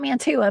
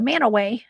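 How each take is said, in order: First: The name is said as spelled, Man-tu-a. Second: The name is said as Man-a-way. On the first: This is how the spelling reads. The speaker calls it wrong. "It looks like Mantua" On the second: This is how locals say it. The speaker calls it right. "pronounced Manaway"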